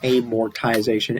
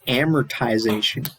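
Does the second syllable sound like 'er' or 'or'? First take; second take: or; er. First: The second syllable is said with an 'or' sound. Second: The second syllable is said with an 'er' sound. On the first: The speaker calls it wrong. "So I was saying it wrong. It's not amortization" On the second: The speaker calls it right. "It's amortization. ... but it's actually er"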